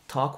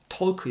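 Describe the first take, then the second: First: No L sound is pronounced in the word. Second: An L sound is pronounced in the word. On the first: The speaker calls it right. "talk with James 이렇게 발음해 주세요" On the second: The speaker calls it wrong. "talk 발음하실 때 L 사운드 내지 마시고요. talk 이러지 마시고"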